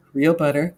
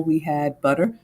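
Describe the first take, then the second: First: "real butter" with real leaned on a little; stress on real. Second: Said in the usual way. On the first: Shown as a demonstration. Host correcting class, "real" gently stressed. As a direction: lift the word "real" slightly.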